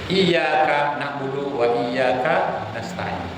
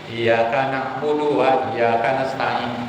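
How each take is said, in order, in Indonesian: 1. Bunyi y pada iyyaka ditahan, jadi dobel. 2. Bunyi y pada iyyaka pendek dan tunggal. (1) "Itu hanya kepada kami menyembah dan hanya kepada kami memohon pertolongan" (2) "kalau tidak ada tasdid"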